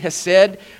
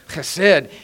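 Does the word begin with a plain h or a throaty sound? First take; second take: plain h; throaty. First: It begins with a plain, light h sound. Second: It begins with a rough sound deep in the throat. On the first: "It's spelled H-E-S-E-D" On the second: "you have to go deep from down in"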